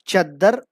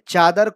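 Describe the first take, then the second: First: Short first vowel, doubled d sound. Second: Long first vowel, single d sound. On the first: This is the Khari Boli dialect form. "खड़ी बोली में तशदीद वाले अल्फाज" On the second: This is the standard form. "चादर होता है"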